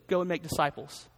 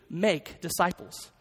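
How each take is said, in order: First: "Go" as the word that counts; stress on GO. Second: "Make" drawn out slowly as the key command; stress on MAKE. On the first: Pastor recalling his old reading of the command, stressing "Go". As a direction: lean on "Go", let "make disciples" fall away. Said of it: "put the emphasis on the word go". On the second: Pastor correcting his old reading from the Greek, stressing "Make". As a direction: set "Make" apart, then "disciples". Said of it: "only verb in the command form is the word make". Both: Shown as a demonstration.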